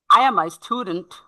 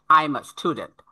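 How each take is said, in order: First: "I am" spoken in full; full form. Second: "I am" squeezed into "I'm"; contracted form. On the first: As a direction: keep "I am" as two words. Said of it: "how to express these sentences". ("I am" পূর্ণ রূপে) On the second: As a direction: say "I'm" as one syllable. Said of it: "that means I'm". (সংক্ষিপ্ত "I'm") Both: Shown as a demonstration.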